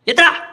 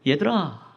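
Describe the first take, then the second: First: It sounds like a harsh scolding call. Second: It sounds like a calm, gentle call.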